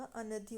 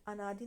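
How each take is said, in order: First: अनधि with a short अ after न; correct form. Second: अनादि with a long आ after न; wrong form. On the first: Teacher giving students the right form, अनधि with short अ. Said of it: "अ की मात्रा नहीं होगी". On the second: Teacher showing students the wrong form, अनादि with long आ. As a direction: say अनादि stretching the आ. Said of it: "अनादि नहीं होता". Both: Shown as a demonstration.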